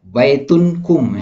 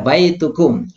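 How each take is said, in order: First: An n sound comes before the ending kum. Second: No n sound comes before the ending kum. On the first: The speaker calls it wrong. "Jangan dibaca domatain ya. ... itu salah ya" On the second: The speaker calls it right. "Tapi dibaca baitukum"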